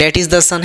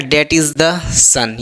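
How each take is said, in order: First: Said in the usual way. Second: That is the son read word by word, very slowly; slow dictation. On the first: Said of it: "यहाँ देखिए the use हुआ है कि नहीं". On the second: Shown as a demonstration. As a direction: spell out each word for the class at x0.2 pace. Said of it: "लिखता है क्या". (बहुत धीरे, शब्द-शब्द बोलकर)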